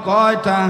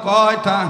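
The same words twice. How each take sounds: No difference in how they are said.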